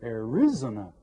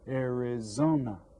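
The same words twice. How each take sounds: First: The stress is not on the third syllable. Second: The stress is on the third syllable. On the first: The speaker calls it wrong. "if I accent one of the other syllables" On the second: The speaker calls it right. "the third syllable, Arizona, has more stress on it"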